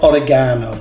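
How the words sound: It is said with a British pronunciation. "We Brits, we call it"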